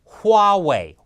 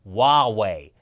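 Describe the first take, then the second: First: The word starts with a clear H sound. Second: The word starts without an H sound. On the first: The speaker calls it right. "It's Huawei. With an H" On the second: The speaker calls it wrong. "it's not Huawei. Stop saying it like that"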